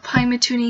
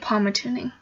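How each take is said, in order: First: The name begins with a 'pie' sound. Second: The name begins with a 'pal' sound. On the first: "That's why I made sure I said it this time" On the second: "I always say Palmatooning"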